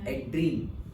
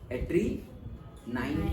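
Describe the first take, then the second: First: The word ends with a short 'een' sound. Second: The word ends with an added 'nine' sound. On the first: The speaker calls it right. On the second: The speaker calls it wrong. "एड्री नाइन तो नहीं बोलेंगे ना"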